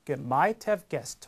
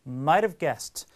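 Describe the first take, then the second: First: "Have" is pronounced fully and separately. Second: "Have" is contracted, with a softened t. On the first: The speaker calls it wrong. "이렇게 말하지 않습니다" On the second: The speaker calls it right. "전부 다 축약해서 하는 것이 일반적이기 때문에 자연스럽게 이렇게 읽어주는 거예요"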